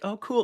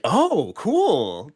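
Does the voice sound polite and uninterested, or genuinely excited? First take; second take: polite; excited. First: It sounds polite but uninterested. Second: It sounds genuinely interested and excited.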